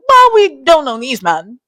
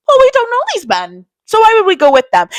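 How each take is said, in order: First: Said in the usual way. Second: Much higher, singsong cautious friend; mock high warning. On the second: To friends who met some guys, high mock caution. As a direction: pitch it way up, a wary mom warning. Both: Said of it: "I'm like".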